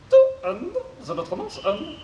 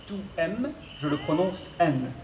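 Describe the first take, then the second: First: Mangle the consonants like a glitchy robot. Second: Said in the usual way. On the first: Acted. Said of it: "souffre d'une pathologie vocale". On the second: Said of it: "je serai son interprète".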